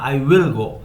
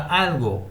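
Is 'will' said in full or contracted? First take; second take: full; contracted. First: The word 'will' is said in full. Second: The word 'will' is contracted to 'I'll'. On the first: The speaker calls it wrong. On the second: The speaker calls it right.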